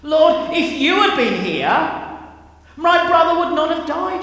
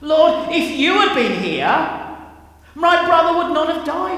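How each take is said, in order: First: It is said with frustration and anger. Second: It is said with frustration and anger.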